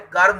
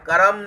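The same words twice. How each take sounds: First: The r joins straight onto m, no vowel. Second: A vowel is sounded between r and m. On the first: The speaker calls it right. "कर्म होता है" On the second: The speaker calls it wrong. "कर्म नहीं होता है"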